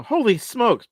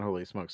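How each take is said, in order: First: A big excited yell; yelled exclamation. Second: Said low and soft, no excitement; flat mumbled. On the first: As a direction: shout it out high and loud. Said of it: "something you're just yelling out". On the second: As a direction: mumble it without any energy. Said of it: "but not". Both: Shown as a demonstration.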